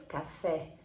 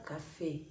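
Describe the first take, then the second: First: "café" con la e abierta portuguesa; café portugués. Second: "café" con e cerrada española; café español. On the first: ("café" a la portuguesa, e abierta) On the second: ("café" en español, e cerrada) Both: Shown as a demonstration. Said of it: "pero la pronuncia cambia".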